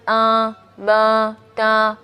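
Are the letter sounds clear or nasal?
nasal. The syllables are voiced through the nose. The speaker calls it wrong. "Jadi bukan"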